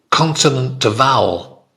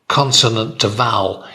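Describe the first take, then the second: No difference in how they are said.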